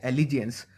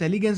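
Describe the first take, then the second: First: The middle consonant is a j sound. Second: The middle consonant is a hard g sound. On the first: The speaker calls it right. "But इसे बुलाया जाता है एलिजेंस" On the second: The speaker calls it wrong. "मैं इसे बार बार एलिगेंस एलिगेंस बोल रहा हूं"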